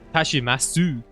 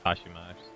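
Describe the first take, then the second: First: The final u sound is fully said. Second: The final u sound is dropped. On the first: "Tashimasu to trigger somebody in the chat" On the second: "I think it is a Tashimash"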